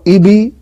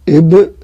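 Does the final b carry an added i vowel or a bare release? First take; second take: i vowel; bare release. First: The b is followed by an added i vowel. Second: The b ends in a bare bouncing release. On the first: The speaker calls it wrong. "يبقى أنت كده كسرت" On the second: The speaker calls it right. "القلقلة حرف ساكن نقلقل نحركه في مكانه"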